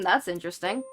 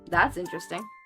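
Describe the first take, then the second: First: It is said in an openly sassy tone. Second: It is said in a flat, neutral tone. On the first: "sassy in like the sassy sassy sense" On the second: "A more neutral tone while still having that sarcastic demeanor behind it"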